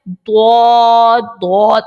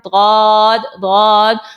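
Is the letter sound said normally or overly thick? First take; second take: overly thick; normally. First: The letter sound is made overly thick and heavy. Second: The letter sound is made normally, not overly thick. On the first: The speaker calls it wrong. "मोटा पढ़ने के चक्कर में वो गलत पढ़ते हैं" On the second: The speaker calls it right. "आप पढ़ें दौद दौद"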